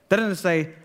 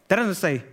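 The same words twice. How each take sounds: The two takes are said the same way.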